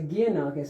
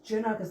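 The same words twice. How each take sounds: First: The first syllable does not sound like 'Ja'. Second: The first syllable sounds like 'Ja' in Japan. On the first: The speaker calls it wrong. "they would all say Giannakis. And I said, no" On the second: The speaker calls it right. "it's Giannakis like Japan"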